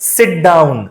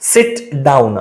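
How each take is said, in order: First: The t and d merge together, said fast. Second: The t and d are said separately, slowly.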